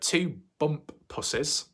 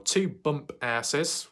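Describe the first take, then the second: First: The name ends with a 'pussies' sound. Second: The name ends with an 'asses' sound. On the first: "that's what happens when you pronounce it the correct way" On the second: "whichever one, same thing"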